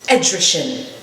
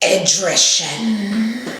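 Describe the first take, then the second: First: It is said in a plain reading voice. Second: It is said in a put-on dragon voice.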